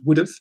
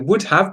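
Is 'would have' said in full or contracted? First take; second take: contracted; full. First: The words are reduced and run together. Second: Both words are said fully and separately.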